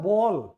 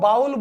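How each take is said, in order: First: The vowel sounds like 'oh' in go. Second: The vowel sounds like 'ow' in cow. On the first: The speaker calls it right. "ये होता है बॉल" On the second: The speaker calls it wrong. "कई इसको बाउल बोलते हैं, ये बिल्कुल गलत है"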